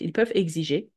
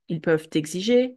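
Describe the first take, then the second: First: Peuvent and exiger are said without a linking consonant. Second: The final consonant of peuvent links into exiger. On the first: "you can also decide not to do it" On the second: "we will do the liaison with whatever comes after"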